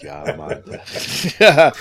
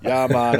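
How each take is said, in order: First: A fuller go at a Jamaican "Yeah, man", admittedly bad; self-mocking Jamaican accent, a bit higher. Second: Put-on a light first try at a Jamaican accent; tentative Jamaican accent, barely shifted. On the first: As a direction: lean harder into the Jamaican accent, laughing at yourself. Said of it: "I'm terrible at the Jamaican accent". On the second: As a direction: test out a Jamaican "Yeah, man". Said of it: "dig up that Jamaican accent".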